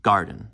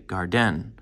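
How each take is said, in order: First: Said in the usual way. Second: Garden said gar-DEN, second syllable stressed; wrong-syllable stress. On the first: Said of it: "garden is the opposite". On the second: Shown as a demonstration. Teacher showing how we don't say it, garden as gar-DEN. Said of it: "we don't say garden".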